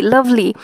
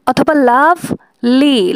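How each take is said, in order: First: Said in the usual way. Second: লাভ লি split slow, লাভ stressed, লি light; stress on LOVE. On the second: Shown as a demonstration. (লাভ জোরে, লি হালকা করে) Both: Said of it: "লাভ হচ্ছে জোরযুক্ত".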